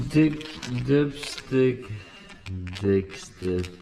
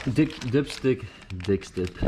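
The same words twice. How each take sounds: First: Slow deliberate replay of "dick, dipstick"; slow mock repeat. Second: Said in the usual way. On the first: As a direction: drag out "dick, dipstick" as a joke. Jokingly repeats his own slip.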